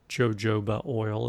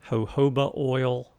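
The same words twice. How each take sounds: First: It is said with an Alabama pronunciation. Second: It is said with a standard pronunciation.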